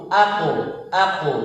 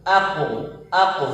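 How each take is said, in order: The two takes are said the same way.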